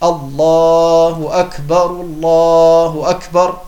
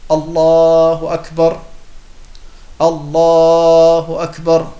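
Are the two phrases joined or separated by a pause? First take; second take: joined; separated. First: The two phrases run together without a pause. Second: A pause separates the two phrases. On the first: "sie verbinden die beiden ersten miteinander" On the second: "ich habe alle 4 Sätze voneinander getrennt"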